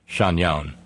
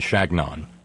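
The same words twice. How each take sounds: First: The gn is said like ny in canyon. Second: The g and n are said as separate sounds. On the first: The speaker calls it wrong. "it is not Chagnon" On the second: The speaker calls it right. "that's the way he pronounced it"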